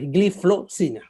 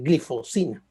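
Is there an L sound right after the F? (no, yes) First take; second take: yes; no. First: The middle is 'flo', with an L sound. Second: The middle is 'fo', with no L sound. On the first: The speaker calls it right. "pero es gliflozina" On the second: The speaker calls it wrong. "uno se acostumbra a decir glifosina"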